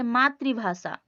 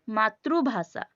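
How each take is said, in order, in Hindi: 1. दूसरा अक्षर 'ri' की तरह बोला जाता है। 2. दूसरा अक्षर 'ru' की तरह बोला जाता है। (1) "हिंदी में कहेंगे मातृभाषा" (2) "उड़िया में क्या कहते हैं? ... वहां पे रू होता है"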